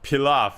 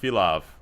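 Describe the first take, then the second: First: The word begins with a P sound. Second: The word begins with an F sound. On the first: The speaker calls it right. "It's pilaf" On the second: The speaker calls it wrong. "not filaf"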